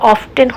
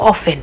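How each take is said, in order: First: The t sound is pronounced in the middle. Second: The t sound is left out entirely. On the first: The speaker calls it wrong. "এখানে অফটেন হতো" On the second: The speaker calls it right. "টিটা উজ্জ আছে সেই জন্য আমরা এটা উচ্চারণ করব অফেন"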